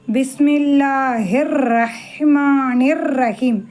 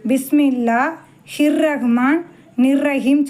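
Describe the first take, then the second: First: The syllables are linked smoothly into each word. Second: The words are split into separate broken chunks. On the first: The speaker calls it right. "இந்த இதை இதோடு சேர்க்கணும்" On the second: The speaker calls it wrong. "ஆனால் எல்லோரும் என்ன சொல்லுவாங்க"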